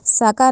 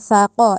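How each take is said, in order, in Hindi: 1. इसकी शुरुआत s की आवाज़ से होती है। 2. इसकी शुरुआत नरम th की आवाज़ से होती है। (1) "साका नहीं कहना" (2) "सा को नरमी से पढ़ना है, दांतों के दरमियान जबान ला के"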